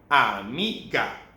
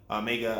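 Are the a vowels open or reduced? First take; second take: open; reduced. First: The a vowels are open, clear ah sounds. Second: The a vowels are reduced to a weak uh. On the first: The speaker calls it right. "no, ah, amiga" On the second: The speaker calls it wrong. "It's not like a amiga"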